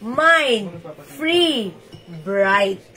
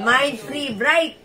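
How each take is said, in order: First: Each word set apart with a pause; Mind, Free, Bright said slowly one at a time with a pause after each. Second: Mind Free Bright said slowly as one phrase; slow and joined. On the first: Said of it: "I-comment nyo na". (isa-isang salita, may hinto sa bawat isa) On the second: (dahan-dahan, tuloy-tuloy na sinabi) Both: Shown as a demonstration.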